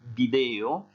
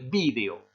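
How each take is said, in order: First: The stress is on the second syllable. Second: The stress is on the first syllable. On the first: "Se puede pronunciar el video" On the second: "si hay un tilde aquí, se pronuncia el video"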